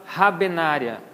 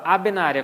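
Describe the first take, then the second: First: "rabenária" with a breathed H at the start; aspirated H. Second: "abenária" starting straight on the A; silent H. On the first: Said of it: "não aspirada. A gente não fala". ("rabenária" com H aspirado) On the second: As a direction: drop the H entirely in "abenária". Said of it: "como se ele não existisse". ("abenária" com H mudo) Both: Shown as a demonstration.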